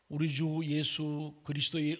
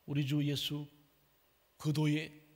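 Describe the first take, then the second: First: The words are spoken with clear articulation. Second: The words are spoken with slurred, unclear articulation.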